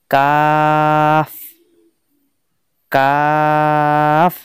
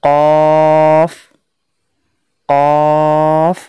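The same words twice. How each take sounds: First: "কাফ" with a thin, light k, very drawn out; চিকন কাফ. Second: "কফ" with a thick, heavy q, held long; মোটা কফ. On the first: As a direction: hold "কাফ" long with a light k. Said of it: "চিকন অর্থাৎ পাতলা উচ্চারণ". ("কাফ" পাতলা আওয়াজে লম্বা টেনে) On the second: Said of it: "মোটা উচ্চারণ করতে হবে". ("কফ" মোটা আওয়াজে টেনে উচ্চারণ) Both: Shown as a demonstration.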